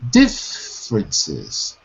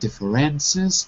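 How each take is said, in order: First: The stress is on the first syllable. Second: The stress is on the third syllable. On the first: The speaker calls it right. "First syllable. La sílaba tónica. Primera sílaba" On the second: The speaker calls it wrong. "You're putting the stress on the third syllable. You're saying differences"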